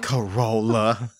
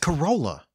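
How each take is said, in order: First: The word is said with a disgusted, scornful tone. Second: The word is said in a plain, neutral way. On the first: The speaker looks down on the car. The speaker calls it wrong. "You were like" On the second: The car is just an ordinary thing. The speaker calls it right. "It's a normal word"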